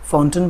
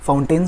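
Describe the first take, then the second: First: "फाउंटेन" as FOWN-tun; easier acceptable pronunciation. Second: "फाउंटेन" as fown-TAIN; full "ay" vowel at the end of "फाउंटेन"; inferior pronunciation. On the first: Teacher offering an easier option, "फाउंटेन" as FOWN-tun. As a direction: keep a short "tun" ending on "फाउंटेन". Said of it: "फाउंटेन से तो better ही है". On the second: Teacher citing the worse option, "फाउंटेन" as fown-TAIN. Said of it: "से तो better ही है". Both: Shown as a demonstration.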